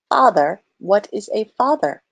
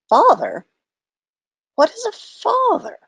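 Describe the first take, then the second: First: It is said in a flat robotic voice. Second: It is said in a normal reading voice.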